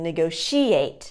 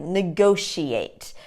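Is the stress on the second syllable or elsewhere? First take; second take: elsewhere; second syllable. First: The stress falls off the second syllable. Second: The stress falls on the second syllable. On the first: The speaker calls it wrong. "the syllable stress in the incorrect place" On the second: The speaker calls it right. "the second syllable is stressed"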